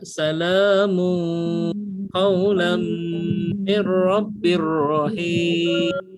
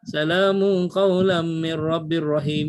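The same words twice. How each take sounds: First: The nasal sounds are held for two counts. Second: The nasal sounds are cut short. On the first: "mung dua harakat, lam mi harakat" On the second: "Macam sebelum ni mungkin kita akan baca"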